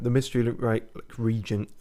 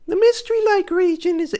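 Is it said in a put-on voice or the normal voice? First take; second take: normal; put-on. First: It is said in his normal voice. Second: It is said in a put-on voice.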